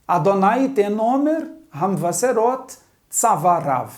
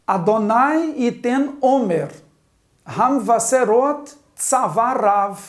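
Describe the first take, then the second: First: More fluent, connected Hebrew reading; leitura corrida. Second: Slow, word-by-word Hebrew reading; leitura pausada. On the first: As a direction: read the verse through smoothly, linking the words. (leitura fluente, palavras ligadas) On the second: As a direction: read it out slowly in separate chunks for learners. (leitura didática, lenta e pausada) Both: Shown as a demonstration. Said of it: "Vamos à leitura?".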